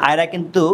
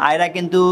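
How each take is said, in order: No difference in how they are said.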